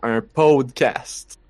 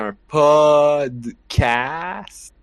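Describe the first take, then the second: First: Podcast is pronounced with English-like vowels. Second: Podcast is pronounced with French vowels. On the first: "plus comme en anglais" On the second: "nous, on dit podcast"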